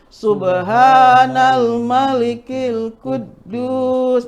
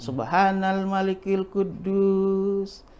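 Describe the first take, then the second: First: It is said louder than before. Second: It is said at normal, softer volume.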